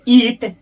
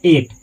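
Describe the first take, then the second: First: The vowel is a long 'ee' sound. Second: The vowel is a short 'i' sound. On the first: The speaker calls it wrong. "ईट गलत है" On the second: The speaker calls it right. "इसको एट पढ़ा जाता है"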